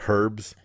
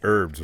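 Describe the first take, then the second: First: The word starts with an H sound. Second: The word starts without an H sound. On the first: The speaker calls it wrong. "Not herbs" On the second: The speaker calls it right. "you say herbs, right?"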